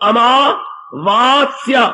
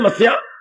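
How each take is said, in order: First: The word is said in full with every syllable. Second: The word is shortened, dropping its opening syllables. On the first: It is the pure traditional way of saying it. The speaker calls it right. "शुद्ध अमावास्या" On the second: It is the everyday regional way of saying it. The speaker calls it wrong. "ऐसे बोल बोल के शब्दों को बड़ा बिगाड़ा पंजाबी के अंदर"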